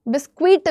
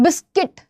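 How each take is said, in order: First: The word ends with a 'kwit' sound. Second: The word ends with a plain 'kit' sound. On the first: The speaker calls it wrong. "बिस्क्विट भी नहीं बोलते हो" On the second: The speaker calls it right.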